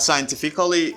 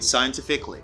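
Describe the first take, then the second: First: The ending is said as two syllables, ca-lly. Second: The ending is said as one syllable, cly. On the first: The speaker calls it wrong. "Not scientifically" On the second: The speaker calls it right. "you say scientifically"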